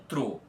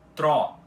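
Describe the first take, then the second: First: The O vowel is pronounced closed. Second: The O vowel is pronounced open. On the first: The speaker calls it wrong. "e não TRO" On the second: The speaker calls it right. "com esse O aberto também"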